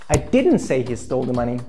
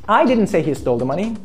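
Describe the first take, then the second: First: The stress falls on the word didn't. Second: The stress falls on the word I. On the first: The claim is denied outright. "That's totally wrong. I deny it" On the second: Someone else said it. "Someone else said he stole the money"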